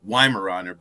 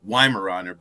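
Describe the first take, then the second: First: The word gets its everyday American pronunciation. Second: The word gets its everyday American pronunciation.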